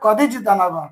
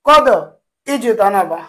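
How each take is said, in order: First: The two words run together, with no glottal stop. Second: The two words are separate, with a glottal stop. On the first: "তখন কিন্তু আর ওই হামজা অস্থির উচ্চারণ হবে না, এখন হবে" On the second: "আসলে ছিল"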